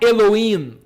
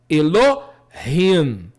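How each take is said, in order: First: The middle h is silent. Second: The middle h is a light breathy sound. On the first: The speaker calls it wrong. "não é Elohim. O H, o Re, não é mudo" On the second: The speaker calls it right. "Ele tem uma gutural leve"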